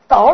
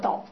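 First: The syllable has a low dipping, falling-rising tone. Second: The syllable has a sharp falling tone. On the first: Something falls over or collapses. "那有两种念法，倒了是怎么？我站不住了" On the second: Something is turned upside down. "那叫倒，倒过来"

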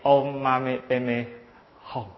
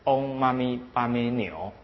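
First: The final syllable is pronounced 'hong'. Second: The final syllable is pronounced 'niu'. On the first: The speaker calls it right. "应该念嗡嘛咪叭咪吽" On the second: The speaker calls it wrong. "那她念成嗡嘛咪叭咪牛"

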